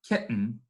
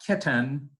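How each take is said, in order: First: The final n forms its own syllable. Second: A vowel is heard before the final n. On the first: The speaker calls it right. "but kitten ... we have a syllabic N" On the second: The speaker calls it wrong. "not kitten"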